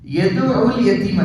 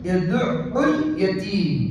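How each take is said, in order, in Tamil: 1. ஐன் எழுத்து ஒரு முறை மட்டும் சொல்லப்படும், இரட்டிப்பு இல்லை. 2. ஐன் எழுத்து இரட்டிப்பாகி, கொஞ்சம் நீட்டி ஒலிக்கப்படும். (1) "யதுஉல் யதீம் அல்ல" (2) "அந்த இடத்துல அதை இரட்டித்து ஓதுவது முக்கியம்"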